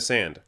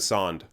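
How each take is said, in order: First: The vowel sounds like the 'a' in 'cat'. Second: The vowel sounds like the 'aw' in 'saw'. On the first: The speaker calls it right. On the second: The speaker calls it wrong. "We don't say"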